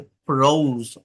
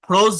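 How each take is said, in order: First: ফ্রোজ with a long, gliding "ou"; teaching demo of ফ্রোজ, o held long; drawn-out o. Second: ফ্রোজ with a short, undrawn o; the wrong ফ্রোজ, its o not stretched. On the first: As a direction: stretch the o in ফ্রোজ. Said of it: "ও এর মতো করে একটু টান দিবেন". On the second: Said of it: "ফ্রোজ না কিন্তু". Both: Shown as a demonstration.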